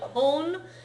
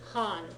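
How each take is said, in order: First: The vowel sounds like the one in 'hon'. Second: The vowel sounds like the one in 'Han'. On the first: The speaker calls it wrong. "make sure it doesn't sound like hon" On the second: The speaker calls it right. "It's Han. Think Han Solo"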